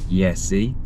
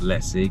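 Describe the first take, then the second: First: The name begins with a Y sound. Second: The name begins with an L sound. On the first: The speaker calls it right. "because it's with a J, so it's Yesi" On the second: The speaker calls it wrong. "it's not Lessi"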